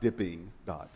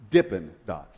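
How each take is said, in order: First: The first word ends in a full 'ing' sound. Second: The first word ends in a clipped 'in' sound. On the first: The speaker calls it wrong. "not dipping dots" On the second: The speaker calls it right.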